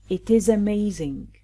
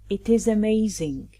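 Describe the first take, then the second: The two takes are said the same way.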